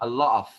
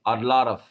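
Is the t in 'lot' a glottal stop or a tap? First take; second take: glottal stop; tap. First: The t is a glottal stop. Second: The t is a quick tongue tap. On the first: The speaker calls it wrong. "الله همزة off" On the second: The speaker calls it right. "دا دا دا دا بلساني"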